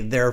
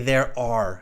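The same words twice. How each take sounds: First: The two words are run together as one syllable. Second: The two words are said separately and fully. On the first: The speaker calls it wrong. "wouldn't say" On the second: The speaker calls it right. "They would put the A in, okay, and separate that out"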